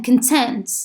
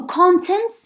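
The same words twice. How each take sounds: First: Con-TENT, with the stress on the second syllable of "content". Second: CON-tent, with the stress on the first syllable of "content". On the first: Teacher contrasting two readings of "content", this one stressed on the second syllable. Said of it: "stress at the beginning and stress at the second". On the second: Teacher contrasting two readings of "content", this one stressed on the first syllable. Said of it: "when you say content and you put the stress". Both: Shown as a demonstration.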